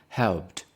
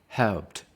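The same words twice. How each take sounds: The two takes are said the same way.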